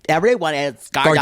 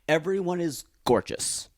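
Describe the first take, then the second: First: It is said in a campy, flamboyant voice. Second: It is said in a plain, ordinary voice.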